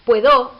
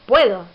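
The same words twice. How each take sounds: First: Puedo wrongly stressed on the final -do, pue-DÓ; stress on last syllable. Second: Puedo stressed on the opening syllable, PUE-do; stress on first syllable. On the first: Teacher giving the form one doesn't say, puedo stressed on its last syllable. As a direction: push the accent onto the end of puedo. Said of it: "en lugar de decir". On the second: Teacher giving the form one says, puedo stressed on its first syllable. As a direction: hit the first syllable of puedo, let -do drop. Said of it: "en la primera sílaba". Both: Shown as a demonstration.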